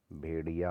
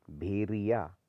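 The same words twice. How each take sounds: First: भेड़िया with retroflex ड़; correct ड़. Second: भेड़िया said with r, "bheriya"; wrong r. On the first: Teacher correcting it, भेड़िया with retroflex sound. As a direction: curl the tongue in भेड़िया. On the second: Teacher showing the error, भेड़िया with plain r. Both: Shown as a demonstration. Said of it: "होता है".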